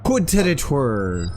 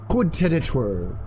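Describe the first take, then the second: First: Slow, deliberate fake French Coup de territoire; mock French. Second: Softer, airier fake French Coup de territoire; mock French. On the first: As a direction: savor the fake phrase. Fake French phrase, slower. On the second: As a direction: toss the fake phrase off quietly.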